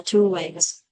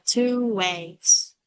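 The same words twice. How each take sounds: First: "two ways" run together fast, with a w linking the vowels; linked fast-speech "two ways". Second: Said in the usual way. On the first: Shown as a demonstration. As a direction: glide straight from "two" into "ways". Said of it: "đọc lướt nhanh thì nó trở thành". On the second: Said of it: "hay đọc là".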